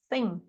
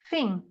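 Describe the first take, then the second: First: It starts with a th sound, tongue between teeth. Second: It starts with an f-like sound, no tongue showing. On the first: "que a gente fala thin" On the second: "no Cockney"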